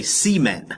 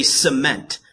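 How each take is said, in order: First: Cement said as "SEE-ment"; mock family pronunciation, cement as "SEE-men"; mispronunciation. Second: Cement stressed on the second syllable; standard pronunciation. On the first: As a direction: say cement with a long EE in the first syllable. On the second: Shown as a demonstration. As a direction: say cement as "suh-MENT". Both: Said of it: "that's not right".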